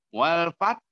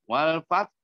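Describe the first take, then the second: No difference in how they are said.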